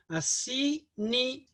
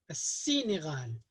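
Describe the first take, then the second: First: السينغال again with the l silent and a doubled s; sin with shadda. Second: السينغال with a doubled s and no l sound; sin with shadda. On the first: Teacher repeating for the class, doubled sin. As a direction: repeat السينغال with the s held longer. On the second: Teacher to students, doubled sin in السينغال. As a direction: say السينغال as assinighal, leaning on the s. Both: Shown as a demonstration. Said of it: "on va prononcer le sin avec shadda".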